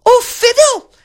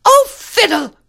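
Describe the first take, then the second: First: Even higher, loud mimicking squeak; echoing ladies-in-waiting. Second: Very high, loud petulant cry; crying-out princess. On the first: Ladies-in-waiting copy the princess, shrieky high echo. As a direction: parrot the princess at the very top. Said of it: "echoed the ladies-in-waiting". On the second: Princess rejects the real rose, petulant high cry. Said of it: "cried the princess". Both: A narrator's reading.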